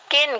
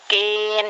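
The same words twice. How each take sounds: First: The vowel is short and clipped. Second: The vowel is drawn out long. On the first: The speaker calls it right. "kin gitu" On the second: The speaker calls it wrong. "jangan kin jangan dipanjangin"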